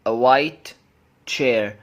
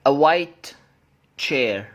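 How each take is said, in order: The two takes are said the same way.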